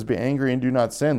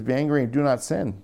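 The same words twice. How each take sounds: First: Said in the usual way. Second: Emphatic "do" in "Be angry and do not sin"; stress on do. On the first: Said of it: "The Bible says". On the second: Shown as a demonstration. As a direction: lean on the word "do" in "do not sin".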